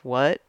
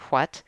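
First: It begins with a plain 'w' sound. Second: It begins with a breathy 'hw' sound. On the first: "instead of what" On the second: "I pronounce my WHs, you know, I say what"

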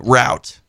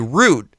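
First: The vowel rhymes with 'out'. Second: The vowel rhymes with 'boot'. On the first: This is how it is said where the speaker is from. "where I'm from, we say route" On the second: This is how others say it. "Even if you do say root"

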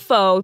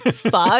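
First: The word rhymes with show. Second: The word does not rhyme with show. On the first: The speaker calls it wrong. "It's not pho. That is my biggest pet peeve" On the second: The speaker calls it right. "It's pho"

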